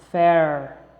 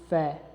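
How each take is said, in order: First: The final R is pronounced strongly. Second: The final R is dropped entirely. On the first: This is how Americans say it. "Ele não pronuncia o R puxado como os americanos" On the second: This is how the British character says it. "Ele diz fé"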